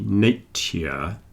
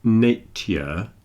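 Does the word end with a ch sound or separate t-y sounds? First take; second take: t-y; t-y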